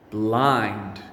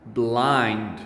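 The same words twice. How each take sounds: The two takes are said the same way.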